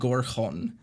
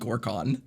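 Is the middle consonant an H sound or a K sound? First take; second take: H sound; K sound. First: The middle consonant is a breathy H sound. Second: The middle consonant is a hard K sound. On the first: The speaker calls it right. "is called the town on" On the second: The speaker calls it wrong. "I just pronounced it as"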